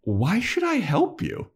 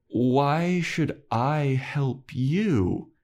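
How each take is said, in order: First: High, slow question rising at the end; passive-aggressive. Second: Every word stretched very slowly, pitch raised; passive-aggressive. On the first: Giles with arms crossed questions Spike, passive-aggressive. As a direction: toy with them, voice lifted in mock inquiry. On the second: Giles demands payback from Spike, drawn-out passive-aggressive. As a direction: draw the question right out to make them squirm. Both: Retold or imitated. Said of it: "passive aggressive".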